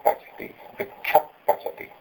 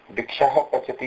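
First: वृक्ष पचति with the visarga softened into a breathy puff before प; half visarga. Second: वृक्षः with a clear breathy हः before पचति; full visarga. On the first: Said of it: "इसको जब उपतमानीय आदेश होगा तो बोलेंगे". (उपध्मानीय उच्चारण, आधा विसर्ग) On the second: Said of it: "यहाँ तो मैं विसर्ग के रूप में बोल रहा हूँ". (वृक्षः में पूरा विसर्ग बोलिए) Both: Shown as a demonstration.

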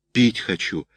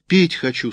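First: Said in the usual way. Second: Put-on "Пить хочу" in a higher child's voice; a younger boy asks, pitched up; second child, higher. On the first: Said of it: "сказал один". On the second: A narrator's reading. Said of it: "сказал другой". (выше, детским голосом)

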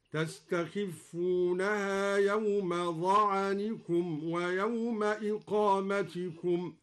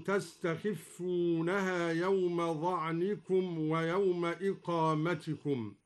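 First: "ظعنكم" said za'anikum, short a after the ayn; slow recitation with "ظعنكم" as za-'a-ni-kum; open-vowel ayn. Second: Said in the usual way. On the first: Shown as a demonstration. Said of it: "قرأ الدوري بفتح العين ظعنكم". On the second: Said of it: "قرأ الدوري بفتح العين".

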